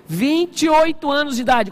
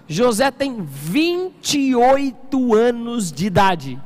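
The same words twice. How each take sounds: First: Said in the usual way. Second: Slow, weighty, every word drawn out; slow emphasis. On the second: Shown as a demonstration. Pastor stresses José's age to the church, slow and heavy. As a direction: spell out the age slowly for the congregation. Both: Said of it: "Quantos anos?".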